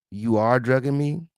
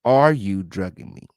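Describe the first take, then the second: First: "You are drugging me" with weight on ARE, rising at the end; translated-Spanish phrasing. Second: "Are you drugging me?" low, ARE hit hard, then falling; English question wording. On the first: Host shows second-language wording, statement with questioning rise. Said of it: "It's kinda how they". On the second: Host gives the English wording, stressed ARE. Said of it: "the question is". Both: Shown as a demonstration.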